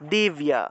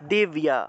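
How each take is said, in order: First: It is said with a y glide after the b. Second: The same.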